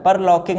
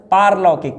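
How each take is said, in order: First: परलौकिक with short par; short first vowel in परलौकिक; wrong form. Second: पारलौकिक with long PAAR; correct form. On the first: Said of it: "परलौकिक नहीं है". (परलौकिक में पर छोटा) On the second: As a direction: stretch the first aa in पारलौकिक. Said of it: "क्या होता है". (पारलौकिक में पार लंबा) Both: Shown as a demonstration.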